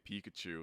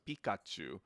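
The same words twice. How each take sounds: First: It is said with an American accent. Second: It is said with a Japanese accent. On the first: This is how English speakers commonly say the name. "we say it with the American accent" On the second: This is the original way the name is said. "it's Pikachu"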